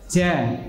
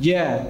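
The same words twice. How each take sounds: First: The j has an extra hard catch. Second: The j is smooth without a hard catch. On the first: The speaker calls it wrong. "tidak ja, ja, bukan" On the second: The speaker calls it right. "tapi ja"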